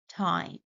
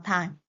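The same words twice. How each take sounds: First: The first sound is an English t. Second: The first sound is a substituted non-English sound. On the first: The speaker calls it right. "It should be time" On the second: The speaker calls it wrong. "they substitute a similar sound which exists in their native language"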